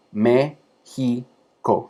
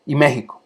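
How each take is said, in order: First: México drawn out very slowly, syllable by syllable; very slow teaching demo of México. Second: Said in the usual way. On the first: Shown as a demonstration. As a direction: stretch México out very slowly so each vowel sounds on its own. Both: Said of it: "cada uno es una vocal".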